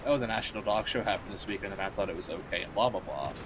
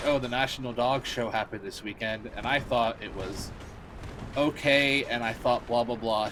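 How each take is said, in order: First: Droning copy of what she just heard; parroting flatly. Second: Mock Phil DeFranco. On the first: Retold or imitated. Streamer mimicking a fan who parrots Phil's opinions, mock flat drone. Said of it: "she would say". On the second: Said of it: "Phil DeFranco was like".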